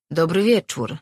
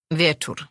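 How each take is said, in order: First: Louder, outgoing hello; lightly voiced sociable tavern-goer; Marin's hearty greeting. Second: Short, reserved reply; lightly voiced old grump, unenthusiastic; grumpy old man's greeting. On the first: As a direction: greet an old drinking partner out loud. Marin cheerfully greets old drinking partner. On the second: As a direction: return the greeting grudgingly. Grumpy old man returns the greeting.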